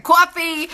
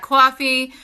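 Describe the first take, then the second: First: Exaggerated, higher-pitched New York "coffee"; New York accent. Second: Slight New York accent on "coffee". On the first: Shown as a demonstration. Mocking her own slip, broad New York accent on "coffee". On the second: Real, not acted. Weighing up a coffee purchase, New York accent slipping out. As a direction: let "coffee" slip into New York vowels. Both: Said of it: "my New York accent".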